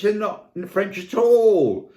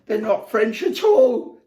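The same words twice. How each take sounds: First: Slow, loud punch on "all"; deliberate slow emphasis on "all"; emphatic. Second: High, loud, laughing through "They're not French at all"; breaking into real laughter on the line. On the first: Acted. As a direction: land "They're not French at all" slowly, hitting "all". First take of punchline. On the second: Real, not acted. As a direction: crack up on the repeat. Repeat dissolving into laughter.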